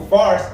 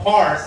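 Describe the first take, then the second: First: Fars said with an F in place of the P. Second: Pars said with a clear P at the start; Pars, the old name, starting on P. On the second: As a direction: say Pars, opening with a firm P sound. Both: Shown as a demonstration. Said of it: "because they did not have P".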